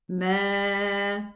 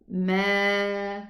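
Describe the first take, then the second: Both takes have the same delivery.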